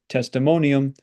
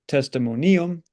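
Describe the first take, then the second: First: The stress falls on the syllable mo. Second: The stress falls on the syllable ni. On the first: The speaker calls it right. "we say testimonium because that I right there is short" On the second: The speaker calls it wrong. "We don't say testimonium"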